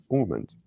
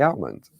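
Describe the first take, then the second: First: "almond" as AW-mund; "almond" with a rounded "aw" first vowel; alternative pronunciation. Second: "almond" with the L sounded; "almond" as AL-mund, short first vowel; first pronunciation variant. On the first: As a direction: say "almond" with no L, opening like "awe". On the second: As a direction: say "almond" starting like "pal". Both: Shown as a demonstration. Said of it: "however you wish to pronounce it".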